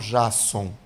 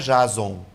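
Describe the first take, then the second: First: The middle consonant is a hissing s sound. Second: The middle consonant is a buzzing z sound. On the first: The speaker calls it right. "que eu falo Jasson?" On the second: The speaker calls it wrong. "aqui não é Jason"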